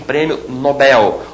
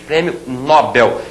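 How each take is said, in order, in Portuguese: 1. A tônica de Nobel está na última sílaba. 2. A tônica de Nobel está na primeira sílaba. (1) "e sim prêmio Nobel, oxítona" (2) "não se diz prêmio Nobel"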